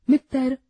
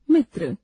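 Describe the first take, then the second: First: मित्र said as "मित्तर" with a doubled t and an added vowel; wrong pronunciation. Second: मित्र with a tight tr ending; correct pronunciation. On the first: Teacher demonstrates the wrong form "मित्तर". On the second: Teacher models the correct मित्र with a joined tr. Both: Shown as a demonstration. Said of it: "अशुद्ध, शुद्ध".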